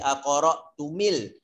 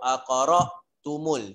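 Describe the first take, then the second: First: The linking vowel after tum is i. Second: The linking vowel after tum is u. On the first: The speaker calls it wrong. "Tak sedap pula aqara tumil Quran" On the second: The speaker calls it right. "Dia tak akan jadi aqara tumil"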